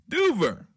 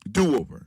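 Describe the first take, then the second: First: It is said as one word, doo-ver. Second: It is said as two words, do and over. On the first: The speaker calls it right. "but it's duver" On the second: The speaker calls it wrong. "I thought it said do-over"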